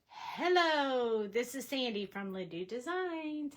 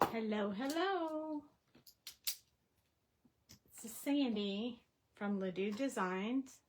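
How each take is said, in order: First: The greeting sounds upbeat and encouraging. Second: The greeting sounds flat and unencouraging.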